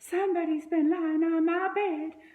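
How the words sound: The voice is sweet and soft. A middle-sized, gentle character is speaking. "in her sweet"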